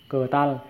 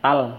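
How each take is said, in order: First: A short syllable comes before tal. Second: Only the syllable tal is said. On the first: "Ketal, cờ tal" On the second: "nói liền mạch là tal"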